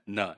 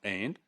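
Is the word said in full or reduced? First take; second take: reduced; full. First: The word is reduced to a syllabic n. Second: The word is said in its full form. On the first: "in connected speech it could be" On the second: "the complete form is and"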